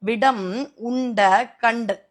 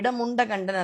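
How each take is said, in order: First: The first two words are said separately. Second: The first two words are run together. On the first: The speaker calls it right. "அதை பிரிச்சு படிக்கணும்" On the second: The speaker calls it wrong. "அல்ல"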